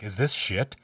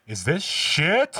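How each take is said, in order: First: Said in the usual way. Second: High, loud, drawn-out question; appalled mock shout. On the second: Retelling the dad finding the smeared walls, appalled shout. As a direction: let disbelief climb into a yell. Retold movie line, escalating.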